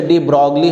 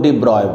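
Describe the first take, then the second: First: "de Broglie" said with the g and l sounded, de BROG-lee; our usual pronunciation. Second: "de Broglie" said as de BROY, no g or l; alternative pronunciation. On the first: Teacher showing how we say it, "de Broglie" with g-l sounded. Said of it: "हम लोग बोलते हैं". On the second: Teacher showing how some say it, "de Broglie" as de BROY. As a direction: say "de Broglie" ending in a -broy sound. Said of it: "कुछ लोग de Broglie बोलते हैं". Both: Shown as a demonstration.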